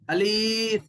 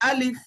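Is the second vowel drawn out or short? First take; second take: drawn out; short. First: The second vowel is drawn out long. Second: The second vowel is kept short. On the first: The speaker calls it wrong. "अलीफ बोल को खींचना नहीं" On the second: The speaker calls it right. "इसको पढ़ना है अलिफ"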